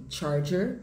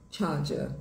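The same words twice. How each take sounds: First: American "charger" with both Rs sounded; sotaque americano. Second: British "charger" without Rs, ending in "ah"; sotaque britânico. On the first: (sotaque americano, com R) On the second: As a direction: drop the Rs in "charger", British style. (sotaque britânico, sem R) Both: Shown as a demonstration. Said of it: "muda de charger para charger".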